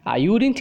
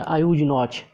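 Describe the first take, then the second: First: Would and not merge into one contracted word. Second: Would and not are said as separate words. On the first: The speaker calls it right. "Você vai falar na forma contraída" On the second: The speaker calls it wrong. "você não vai falar assim"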